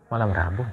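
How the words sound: It is said firmly but calmly.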